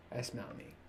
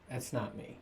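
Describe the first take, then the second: First: That's not me whispered, much softer. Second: Said in the usual way. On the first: Shown as a demonstration. Telling viewers about himself, a soft whisper. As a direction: breathe it as a voiceless whisper. Repeats line, second time whispered.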